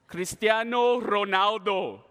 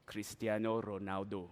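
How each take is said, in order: First: Slow, drawn-out proud name; full-voiced, stretched-out boast; grand announcement. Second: Low, soft name drop; deep, quiet self-important answer; hushed reveal. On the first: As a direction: announce the name like a star's introduction. Proud answer to own question. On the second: Acted. Smug answer to own question.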